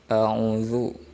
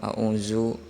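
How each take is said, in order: First: The middle consonant is a voiced th sound. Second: The middle consonant is a plain z sound. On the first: The speaker calls it right. "Harusnya dibacanya a'udzu" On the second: The speaker calls it wrong. "ada yang a'uzu ... salah"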